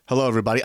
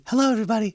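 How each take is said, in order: First: Said in the usual way. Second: "Hello, everybody." raised high and light. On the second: Shown as a demonstration. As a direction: lift "Hello, everybody." into a high, breathy falsetto. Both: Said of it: "Like that, kind of fixing his voice".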